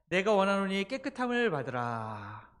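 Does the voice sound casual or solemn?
casual. It is said in a plain, casual voice. The speaker calls it wrong. "이거보다는 좀 더 근엄한 목소리를 하셨겠죠"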